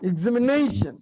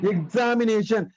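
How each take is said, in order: First: The syllable "na" is stressed more strongly. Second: All five syllables get equal stress. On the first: The speaker calls it right. "ஆனா இங்கிலீஷ்ல the pronunciation is examination" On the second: The speaker calls it wrong. "All the five syllables ஆர் equally stressed in Tamil"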